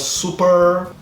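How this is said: It is said with an American English accent. This is how it is said in the United States. "nos Estados Unidos seria super"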